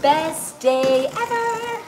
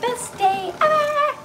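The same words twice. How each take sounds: First: It is said at a slow pace. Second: It is said at a fast pace.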